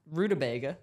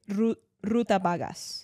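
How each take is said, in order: First: "Rutabaga" said roo-tuh-BAY-guh, stress on BAY; correct pronunciation. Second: Mock Spanish accent. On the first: Shown as a demonstration. Friend correcting her, "Rutabaga" said the right way, stress on BAY. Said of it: "Like a rutabagal". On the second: To a friend, stumbling on an unknown word, "Ruta vagas" in playful mock Spanish accent. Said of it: "I say it in a Spanish accent".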